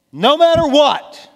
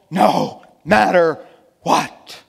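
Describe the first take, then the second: First: High, loud burst in one run; impassioned cry. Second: "no matter what" slow and loud, a pause between words; word-by-word emphasis. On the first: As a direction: cry it out from the pulpit without breaking between words. Same words, repeated as a cry. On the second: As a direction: spell out "no matter what" one weighty word at a time. Same words, slowed for emphasis. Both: Real, not acted.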